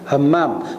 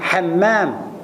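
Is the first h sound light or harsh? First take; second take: light; harsh. First: The first h is a light, soft breath. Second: The first h is a harsh, throaty breath. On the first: A person of great earnestness. The speaker calls it right. "Hammam ni maksudnya orang yang bersungguh-sungguh" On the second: A bathroom. The speaker calls it wrong. "bukan hammam ... tanda bilik air"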